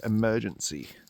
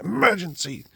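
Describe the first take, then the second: First: It is said flatly, in passing. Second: It is said loudly, with gusto.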